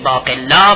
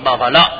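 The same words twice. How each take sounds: First: The word is pronounced the Arabic way. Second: The word is pronounced the Persian way. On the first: "عرب میگه باقلا" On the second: "ما میگیم باقلا"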